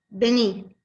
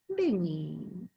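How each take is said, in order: First: It is said as a firm command. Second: It is said as a warm invitation. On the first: The listener is being ordered to come. "Una es un imperativo, una orden" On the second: The listener is being invited to come. "La otra es como una invitación"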